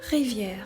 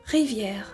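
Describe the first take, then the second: No difference in how they are said.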